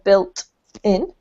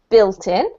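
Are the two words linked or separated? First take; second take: separated; linked. First: The two words are said separately. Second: The two words are joined smoothly together. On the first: The speaker calls it wrong. "instead of built in" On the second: The speaker calls it right. "built in instead of"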